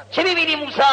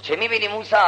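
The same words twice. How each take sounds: First: High, ringing question; insistent divine question. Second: Said in the usual way. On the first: Acted. God questioning Moses after the rock splits, insistent divine question. God asks again, more forcefully.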